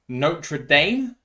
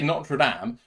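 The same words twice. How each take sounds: First: It is said the American way. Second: It is said the English way.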